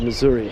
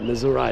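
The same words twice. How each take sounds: First: It is said in a standard way, without twang. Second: It is said with a local Missouri twang. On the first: "instead of" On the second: "This is the Missouri twang"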